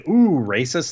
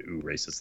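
First: Mock scandalized gasp. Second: Muttered mock tut. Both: Shown as a demonstration. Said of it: "always should do the "ooh, racist" thing".

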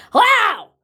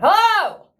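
First: A loud, high barked hello as dad said it; angry yell. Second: A loud, high barked hello down the phone; angry yell. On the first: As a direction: repeat dad's furious hello, much higher and louder. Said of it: "my dad going". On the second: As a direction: mimic dad yelling hello into the phone, much higher and louder. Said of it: "he answers the phone". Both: Retold or imitated.

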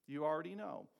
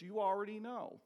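First: Said in the usual way. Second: "You already know" with YOU punched higher and louder; emphatic, higher. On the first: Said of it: "second take, softer". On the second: Shown as a demonstration. Preacher insists the listeners know the answer, punchy and emphatic. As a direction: throw it at the congregation. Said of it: "first take, emphatic".

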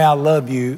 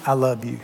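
First: Said in the usual way. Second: Soft and low, said tenderly; quietly loving; tender i love you. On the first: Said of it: "I'd rather her tell me". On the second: Shown as a demonstration. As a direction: say it gently, like she means it. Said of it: "what I'd really like to hear from her".

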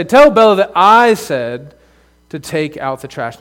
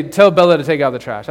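First: "Tell Bella that I said" slow, "tell" leaned on, rising to the end; stress on that I said. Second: Said in the usual way. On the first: Shown as a demonstration. Pastor shows kids the right way to pass on an order, slow with stress. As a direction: weigh "that I said" with care. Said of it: "I say". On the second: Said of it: "I don't ever say".

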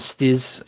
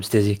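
First: "Stiz" as one syllable, no final y; French pronunciation. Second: Said in the usual way. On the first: Shown as a demonstration. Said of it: "The French pronunciation i". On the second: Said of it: "'cause we're English".

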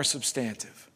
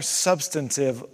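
First: "substantive" with stress on the second syllable, sub-STAN-tive; stress on wrong syllable. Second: "substantive" stressed on the first syllable, SUB-stan-tive; corrected stress. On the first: Preacher slipping on a word mid-sermon, wrong stress. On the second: Preacher correcting his own slip, corrected stress. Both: Real, not acted. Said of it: "I put the emphasis on the wrong syllable".

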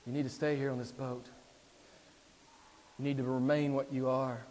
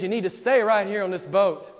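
First: Restrained, lowered tempter's voice; measured, subdued persuasion after a long pause; Satan coaxing. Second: Loud, high, commanding tempter; forceful preacher voicing the devil; Satan insisting. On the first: Acted. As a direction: urge him gently, holding back the force. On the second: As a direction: order him to stay, at full voice. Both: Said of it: "Satan says".

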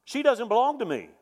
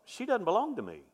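First: Raised-pitch "She doesn't belong to me" with more force; high, louder realization. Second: Higher realization. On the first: Husband reliving his realization in the hospital, raised and firm. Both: Retold or imitated. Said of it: "That's exactly what I thought".

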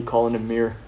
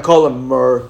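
First: Said in the usual way. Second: "Mir" said as "Murr"; mispronounced name. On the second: Retold or imitated. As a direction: say "Mir" to rhyme with "fur". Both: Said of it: "He doesn't deserve me calling him Mir".

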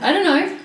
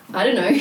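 First: Higher, louder mock boss; imitating the boss. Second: Said in the usual way. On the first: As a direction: play up the assistant principal's answer. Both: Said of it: "there's a joke now between us".

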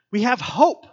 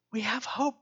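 First: Higher and louder, proclaimed; preacher proclaiming hope loudly; emphatic declaration. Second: Higher but softer, tender repeat; preacher repeating hope softly; soft echo. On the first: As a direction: ring it out. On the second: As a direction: say it again gently. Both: Acted. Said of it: "repeats the line for emphasis".

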